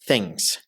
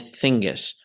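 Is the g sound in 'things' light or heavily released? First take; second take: light; heavily released. First: The g sound is light and barely released. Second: The g sound is heavily released, adding a vowel. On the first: The speaker calls it right. "just give it around ten or twenty percent of stress" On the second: The speaker calls it wrong. "Don't overemphasize it. Don't say things or thingus"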